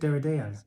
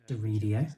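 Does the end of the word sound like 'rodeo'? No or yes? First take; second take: no; yes. First: The ending does not sound like rodeo. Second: The ending sounds like the word rodeo. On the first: This is how the speaker always said it. "I've always said Derideo" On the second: This is how others say it. "Sounds like you're saying rodeo"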